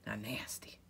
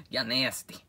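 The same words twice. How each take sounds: First: Whispered y'all nasty. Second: Said in the usual way. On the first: Acted. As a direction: breathe it as a secret whisper.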